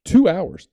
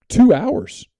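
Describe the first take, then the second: First: Two hours repeated high and loud, a bit less; repeated emphasis. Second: Two hours stressed very high and loud; emphatic. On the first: Reporter repeating the time for emphasis, high stress. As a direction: echo it to drive it home. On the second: Reporter marveling at time with Santo, high emphatic stress. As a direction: land two hours with amazement. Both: Real, not acted.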